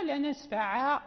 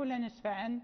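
First: "لا نسفع" ending cut on the ain; stopping on نسفع with no alef. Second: "لا نسفعا" with a long final alef; ending with the alef. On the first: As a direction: stop short on "نسفع" without the final alef. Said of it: "إذا وقفنا". (الوقف على "لا نسفع" بدون ألف) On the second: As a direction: stretch the last a in "نسفعا" as when reading on. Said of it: "لا نقف". ("لا نسفعا" بمد الألف في الوصل) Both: Shown as a demonstration.

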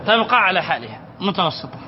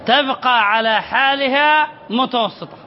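First: Said in the usual way. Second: Slow explaining. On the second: Shown as a demonstration. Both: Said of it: "ما معنى لا يؤثر على الهمزة المتوسطة؟".

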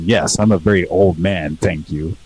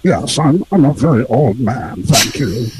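First: Said in the usual way. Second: Put-on filtered old man voice; wobbly old man. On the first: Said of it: "I'm just literally just saying". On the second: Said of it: "really good, actually".

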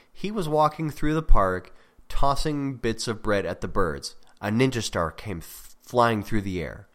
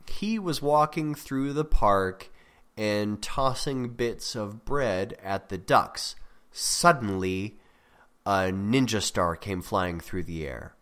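First: Example without suspense. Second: Slow, drawn-out reading with a pause after Suddenly; suspenseful example. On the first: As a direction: read the example straight through at normal pace. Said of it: "without the word suddenly". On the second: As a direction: read it slowly, setting up the surprise Suddenly. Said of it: "try to catch you off guard". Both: Shown as a demonstration.

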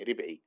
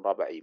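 First: ربعي said as ribʕi, kasra on the first letter; correct pronunciation. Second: ربعي said wrongly as rabʕi, fatha on the first letter; common mistake. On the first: Teacher demonstrates to his students ربعي as ribʕi. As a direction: say ربعي with an i after the r. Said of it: "هكذا ضبط اسمه". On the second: Teacher imitates for his students the mistaken ربعي as rabʕi. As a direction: mimic the mistaken ربعي with an a after the r. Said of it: "بعض الناس يخطئون فيه". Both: Shown as a demonstration.

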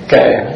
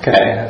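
First: Kệ said louder, brushing it off; a firm, louder Kệ; louder dismissive Kệ. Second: Said in the usual way. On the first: Shown as a demonstration. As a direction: push Kệ out, louder, like shrugging it off. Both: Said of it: "ai nói gì thì sao?".

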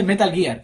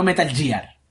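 First: METAL GEAR with a hard G, "guiar". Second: METAL GEAR with a soft G, "yiar". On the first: Correcting how people say it, METAL GEAR with hard G. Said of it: "Se dice Metal Gear". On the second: Showing the mistake to be avoided, METAL GEAR with soft G. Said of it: "y no Metal Gear". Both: Shown as a demonstration.

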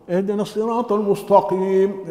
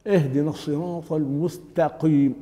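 First: "المستقيم" as "al-mustoqim", heavy dark t; ta made emphatic. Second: "المستقيم" with thin t, "al-mus-ta-qim"; light ta. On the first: Teacher imitating the error, emphatic ta. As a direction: say "اهدنا الصراط المستقيم" with a thick t in the last word. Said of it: "التاء يجعلها طاء". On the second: Teacher modelling the correct verse, light ta. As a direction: say "اهدنا الصراط المستقيم" keeping a pure t. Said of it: "تاء". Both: Shown as a demonstration.

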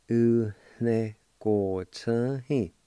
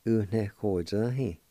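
First: "U ne ko chan he" spoken slowly, syllables spaced apart; slow careful Cherokee. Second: Said in the usual way. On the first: Shown as a demonstration. Teacher slowly modelling "U ne ko chan he" for the class. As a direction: stretch out "U ne ko chan he" so learners can follow. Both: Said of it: "It's pronounced like this".

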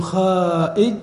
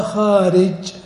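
First: "خائج" as khaa-'ij, glottal stop replacing the r; wrong hamza form. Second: "خارج" as khaa-rij, slow, clear r; correct form with r. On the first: Teacher asking which is said, "خائج" with wrong hamza. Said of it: "ما تقلب العين همزة". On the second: Teacher contrasting the right form, "خارج" with r kept. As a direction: keep the r in "خارج", stretched out. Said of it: "فتأتي بالعين كما هي". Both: Shown as a demonstration.

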